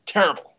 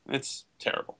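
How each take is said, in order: First: Emphatic repeat. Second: Whispered disgust. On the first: Repeated with force. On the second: Disgust at the film. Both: Real, not acted.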